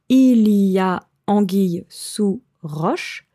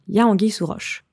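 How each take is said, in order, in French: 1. Le 'il' du début est bien prononcé. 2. Le 'il' du début est supprimé, on commence par 'y a'. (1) "on ne dit pas il y a" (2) "mais tout simplement y a"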